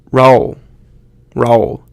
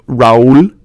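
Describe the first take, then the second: First: Raúl squashed into one syllable, like rowl; American-sounding. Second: Raúl as ra-OOL, stress on the second syllable; two-syllable Spanish. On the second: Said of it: "put that emphasis on there". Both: Shown as a demonstration.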